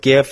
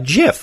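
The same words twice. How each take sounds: First: It starts with a hard G sound. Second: It starts with a soft J sound. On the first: The speaker calls it wrong. "But people call it GIF" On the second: The speaker calls it right. "like the peanut butter"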